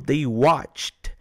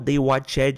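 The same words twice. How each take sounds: First: The -ed ending is a subtle final sound. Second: The -ed ending is said as an extra syllable. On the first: The speaker calls it right. "eu falo they watched" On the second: The speaker calls it wrong. "Eu não falo they watched"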